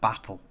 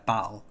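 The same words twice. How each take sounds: First: The middle T is clearly pronounced. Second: The middle T becomes a glottal stop. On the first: "instead of battle" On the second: "I said battle"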